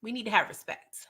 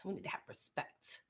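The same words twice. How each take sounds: First: Said in the usual way. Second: Whispered much softer; hushed whispered repeat. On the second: Shown as a demonstration. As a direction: whisper it for emphasis. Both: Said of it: "repeated as whisper".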